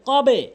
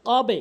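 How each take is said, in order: First: The final b is released with an echoing bounce. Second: The final b is released with an echoing bounce.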